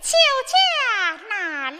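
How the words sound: It is said in a soft, delicate voice.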